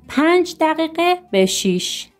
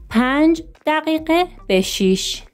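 No difference in how they are said.

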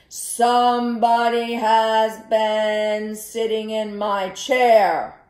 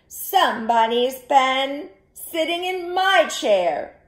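First: It is said in a big, deep voice. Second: It is said in a medium-sized voice. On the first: The largest bear is speaking. "in his great big voice" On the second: The middle-sized bear is speaking. "in her medium-sized voice"

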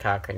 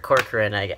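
First: The name is said with two syllables. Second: The name is said with three syllables. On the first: The speaker calls it wrong. "Lloyd would always say Cochran" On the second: The speaker calls it right. "I think the correct pronunciation is Corcoran"

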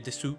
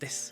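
First: The final u is clearly voiced. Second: The final u is dropped. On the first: The speaker calls it wrong. "nie mówi się desu" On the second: The speaker calls it right. "to raczej jest des"

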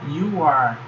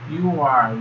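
No difference in how they are said.

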